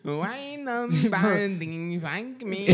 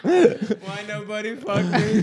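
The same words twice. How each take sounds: First: High, very slow mock wail; Chinese incel voice. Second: High, slow mock wail; drawn-out high put-on accent; Chinese incel voice. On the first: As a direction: stretch every word, high put-on accent. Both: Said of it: "the Chinese incel".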